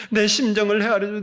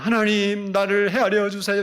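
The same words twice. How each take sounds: First: 내 punched hard and loud before 심정을; stress on 내 심정을. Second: Said in the usual way. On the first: Shown as a demonstration. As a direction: lean on 내 and 심정을 to set it apart. ('내 심정을'에 힘주어) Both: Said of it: "이게 아니고".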